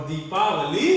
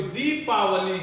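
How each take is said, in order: First: दीपावली lower, with a rising end; low-pitched model of दीपावली, long दी; correct दीपावली, long दी. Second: दीपावली with a jerked first syllable; wrong example of दीपावली with a short first vowel. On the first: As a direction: model दीपावली smoothly with a full first vowel. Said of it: "सही होगा". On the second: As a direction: cut दी short and apart in दीपावली. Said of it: "दीपावली गलत होगा". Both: Shown as a demonstration.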